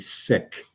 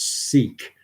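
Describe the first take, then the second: First: The vowel is short, like in 'sick'. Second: The vowel is long, like in 'seek'. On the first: The speaker calls it right. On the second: The speaker calls it wrong.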